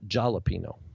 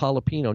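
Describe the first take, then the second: First: The word begins with a J sound. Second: The word begins with an H sound. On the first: The speaker calls it wrong. "not jalapeno" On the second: The speaker calls it right. "It represents a ha"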